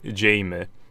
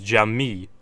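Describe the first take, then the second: First: The first vowel sounds like in 'game'. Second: The first vowel sounds like in 'jam'. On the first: The speaker calls it wrong. "some people do think my username is Jamie Jamie" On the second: The speaker calls it right. "That's how you say it"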